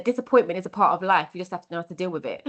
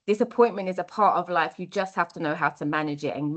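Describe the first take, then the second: First: Quick, lightly voiced foster dad; quoting foster dad. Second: Said in the usual way. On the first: Foster dad giving her life advice, quick light imitation. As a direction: rattle off his advice briskly, a hint of dad. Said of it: "he said". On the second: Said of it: "that's what we've got to teach".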